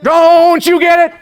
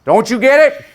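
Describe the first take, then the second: First: Booming, drawn-out preacher cry, very high; Martin Luther King Junior. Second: High, loud preacher-like challenge; Martin Luther King Junior. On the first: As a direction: stretch it out like a boy orator at full force. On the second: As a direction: imitate a boy orator calling out to the class. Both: Retold or imitated. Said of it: "Howard spoke like Martin Luther King Junior".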